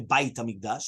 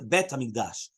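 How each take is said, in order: First: The first word has the diphthong vowel 'ai'. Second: The first word has the short vowel 'e'. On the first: The speaker calls it wrong. "You don't say bait HaMikdash" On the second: The speaker calls it right. "It changes to Bet HaMikdash"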